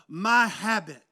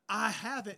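First: The words blur together and sound like 'my habit'. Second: The words are said as separate, clear words. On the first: "what it comes out sounding like is" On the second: "instead of saying"

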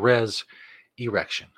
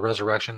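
First: The word is split as 'res' plus 'erection'. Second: The word is said as ordinary 'resurrection'. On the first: The speaker calls it right. "you've been saying it wrong as well" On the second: The speaker calls it wrong. "People call it the resurrection. That's stupid"

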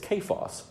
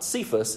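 First: The name begins with a k sound. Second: The name begins with an s sound. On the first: The speaker calls it right. "it's Kephas" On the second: The speaker calls it wrong. "I think we've been mispronouncing it this whole time. It's not Cephas"

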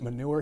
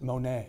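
First: The word ends with a 'nure' sound. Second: The word ends with a 'nay' sound. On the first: This is how outsiders say it. The speaker calls it wrong. "we don't pronounce it manure here" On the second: This is how locals say it. The speaker calls it right. "we pronounce it Monet"

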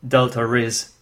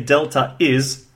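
First: The two words run together with a linking sound. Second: The two words are said separately, without linking. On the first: "in rapid speech, it's Delta is" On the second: "you could say Delta is"

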